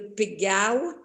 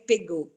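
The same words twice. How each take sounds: First: The final vowel is said as a gliding 'au'. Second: The final vowel is said as a plain 'o'. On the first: It is the local southern dialect form. "we pronounce the O, we pronounce it AU. It's why uh, Domaine de Pégau when we want to speak Provençal" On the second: It is the standard national form. "when we want to speak French, we say Pégau"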